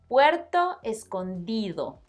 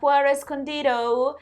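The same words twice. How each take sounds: First: The d between vowels is soft, almost th-like. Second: The d between vowels is a hard stop. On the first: The speaker calls it right. "It's like the sound you make when you pronounce the word father" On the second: The speaker calls it wrong. "That is a mistake that even advanced Spanish students make"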